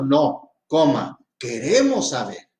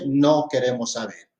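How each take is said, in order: First: A break follows the word no. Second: The words run together without a break. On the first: No; we do want to know. "le estoy diciendo, no, coma, queremos saber" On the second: We do not want to know. "le digo a usted, no queremos saber"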